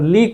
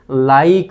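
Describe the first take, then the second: First: The vowel is a plain 'ee' sound. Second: The vowel is a long 'ai' sound. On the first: The silent e is ignored. The speaker calls it wrong. "ई सोडून जर वाचला तर लीक होईल" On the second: The silent e lengthens the vowel. The speaker calls it right. "या आयचा उच्चार मात्र आई घ्यायचा आपल्याला"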